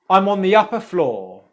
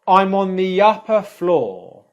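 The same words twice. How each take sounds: First: The sentence is said quickly with connected words. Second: The sentence is said slowly with separated words. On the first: "a bit quicker and a bit more naturally now with real connected speech" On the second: "Now I'll slow that down"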